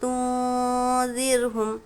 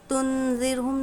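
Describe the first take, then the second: First: The n is hidden as a drawn-out nasal sound. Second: The n is pronounced as a full clear consonant. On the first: The speaker calls it right. "नून की आवाज़ को हम नाक में छुपा कर पढ़ेंगे" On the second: The speaker calls it wrong. "तुनज़िरहुम नहीं पढ़ेंगे"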